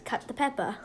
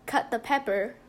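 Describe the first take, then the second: First: It is said in the show's accent. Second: It is said in the speaker's plain accent.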